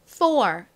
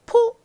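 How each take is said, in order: First: The first consonant is pushed out strongly. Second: The first consonant is said softly. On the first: The speaker calls it right. "세게 th" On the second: The speaker calls it wrong. "four 아니고요"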